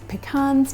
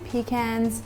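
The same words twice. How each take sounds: First: Pecans is said with an American pronunciation. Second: Pecans is said with an Australian pronunciation. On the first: "that's pecans to my American friends" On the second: "That's just the way we say it here in Australia"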